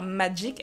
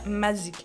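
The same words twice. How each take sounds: First: The word is said in the usual way, magic. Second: The word is said as mazik, with a z. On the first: This is the ordinary form of the word. "Elles vont pas dire Magic" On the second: It blends the words music and magic. "elles vont dire Magic"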